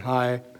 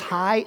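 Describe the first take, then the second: First: The greeting is said flat and low-pitched. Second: The greeting is said bright and high-pitched. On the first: The speaker is not glad to see the person. The speaker calls it wrong. "rather than hi" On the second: The speaker is glad to see the person. The speaker calls it right. "in a voice that's up here"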